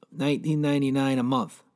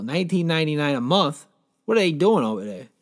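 First: Said in the usual way. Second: Rising, tempted double-take at the price; impressed question. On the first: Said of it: "here's the ad". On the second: Real, not acted. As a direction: repeat the price as if considering buying. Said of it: "I might hit up this deal".

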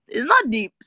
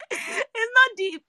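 First: Said in the usual way. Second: High, slow, squeaky with laughter; laughing repeat. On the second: Real, not acted. Host dismissing the film as trivial, laughing repeat. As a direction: drag it out while cracking up.

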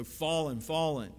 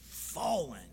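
First: "fallen" said twice, each firm and falling; doubled "fallen" as a proclamation; repeated for emphasis. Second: "fallen" said once with a strong first syllable and falling end; one weighty, falling "fallen"; emphatic single word. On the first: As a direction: hit "fallen", then hit "fallen" just as hard. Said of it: "put emphasis on a word, they'd repeat it". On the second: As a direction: lean into FALL, let "-en" drop. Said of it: "that's the emphasis that we want". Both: Shown as a demonstration.

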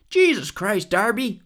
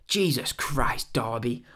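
First: Higher, louder mock American exclamation; put-on American accent, pitched up and loud; bad American accent. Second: Said in the usual way. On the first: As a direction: badly imitate an American wrestler exclaiming in disbelief. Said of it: "that was a bad American accent". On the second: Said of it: "not in an English accent".

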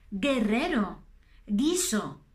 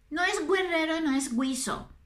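First: "Guerrero", "guiso" with a hard g, u silent. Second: "guerrero" and "guiso" with the u sounded, gw; wrong gw sound. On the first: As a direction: say "guiso" as "giso". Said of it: "mira estas palabras". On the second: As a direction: mimic the error "gwiso". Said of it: "No, no, no, no". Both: Shown as a demonstration.

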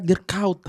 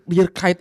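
First: Dirk Kuyt said "Dirk Kowt", the Dutch way; right way. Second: Dirk Kuyt read as "Dirk Kite"; wrong way. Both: Shown as a demonstration. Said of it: "ternyata bukan Dirk Kuyt".

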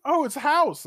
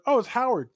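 First: "Oh, it's House" pitched very high on "Oh", falling to "House"; mock gamer recognition. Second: "Oh, it's Howard" raised high on "Oh" and falling; mock recognition of Howard. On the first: Imitating everybody else seeing House, very high pitched. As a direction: squeal "Oh" way up, drop on "House". Contrasting friends' answer. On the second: Contrasting what nobody else said about the photo, raised. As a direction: pitch "Oh" up, let "Howard" drop.

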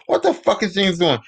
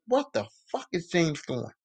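First: Disgusted outburst. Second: Low, disgusted mutter under her breath. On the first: Alyssa spotting James stalking her, now an exasperated outburst. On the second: Alyssa spotting James stalking her, a disgusted mutter. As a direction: say it to yourself, appalled. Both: Retold or imitated. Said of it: "She's like".

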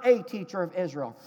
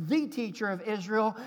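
First: Said in the usual way. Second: "The" stressed to mark the one teacher. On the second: Shown as a demonstration. Preacher contrasting Greek wording, stress on "The". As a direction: lean on "The", not "a".

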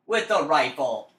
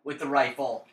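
First: WITH THE RIFLE drawn out slowly; emphatic repeat. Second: Said in the usual way. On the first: Real, not acted. Gamer goading a friend over a bet, slow emphatic "With the rifle". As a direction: stretch out "With the rifle", word by word.

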